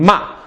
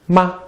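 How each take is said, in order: First: It carries one of the four full tones. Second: It is light and toneless, a neutral tone.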